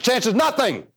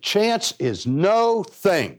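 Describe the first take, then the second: First: It is said at a fast pace. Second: It is said at a slower pace.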